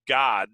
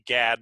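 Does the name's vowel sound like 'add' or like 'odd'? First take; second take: like odd; like add. First: The vowel sounds like the one in 'odd'. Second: The vowel sounds like the one in 'add'. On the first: This is how the name itself is pronounced. "in the pronunciation of it, it was God" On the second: This keeps the prophet's name apart from the word God. "I say Gad"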